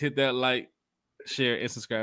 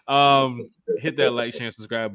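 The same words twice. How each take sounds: First: It is said in the speaker's ordinary voice. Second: It is said in a put-on imitation voice.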